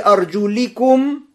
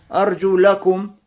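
First: The vowel after 'arjul' is an 'i'. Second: The vowel after 'arjul' is an 'a'. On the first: The feet are wiped over footwear. "с кесрой" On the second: The bare feet are washed. "с фатхой"

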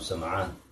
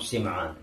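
First: The first vowel of the name is 'a'. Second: The first vowel of the name is 'i'.

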